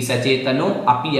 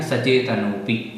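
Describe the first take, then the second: First: सचेतनो अपि in two pieces, अपि with its own opening a; wrongly separated. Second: सचेतनोपि in one piece, पि attached to नो; correctly merged. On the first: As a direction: detach अपि after सचेतनो. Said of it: "अलग से नहीं बोलना है". (सचेतनो अपि, दो अलग पद) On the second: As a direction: run सचेतनोपि together with no a. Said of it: "उसी के साथ पी बोल देना है". (सचेतनोपि, पि को साथ जोड़कर) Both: Shown as a demonstration.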